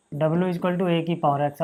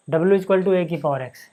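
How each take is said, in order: First: Even slower, drawn-out repeat of the dictation; very slow dictated repeat. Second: Slow, spelled-out dictation pace; slow, deliberate board dictation. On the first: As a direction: repeat it slowly so students can write it down. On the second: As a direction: dictate each word slowly for students to copy. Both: Shown as a demonstration. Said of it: "teacher dictating slowly".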